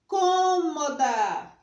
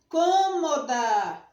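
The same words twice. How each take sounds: Both takes have the same delivery.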